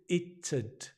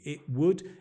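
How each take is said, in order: First: It is said as one contracted syllable. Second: It is said as two full words.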